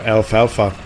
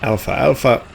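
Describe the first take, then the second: First: It begins 'alf' with no vowel after it. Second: It sounds like 'alpha' said twice. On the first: The speaker calls it right. "it's actually uh, without the second A" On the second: The speaker calls it wrong. "I used to think it's called Alpha Alpha, like two Roman letters"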